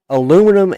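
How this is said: The word is said the American way. "the Yanks call it aluminum"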